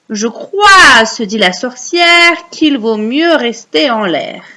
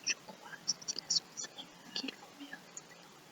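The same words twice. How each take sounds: First: Slow recital with a loud opening; recite for repeating. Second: Very faint whisper; whispered echo. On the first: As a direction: stretch out the verse for children to echo. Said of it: "vous allez réciter après moi". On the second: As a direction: whisper it back, hardly audible. Echoing the line for pupils. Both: Shown as a demonstration.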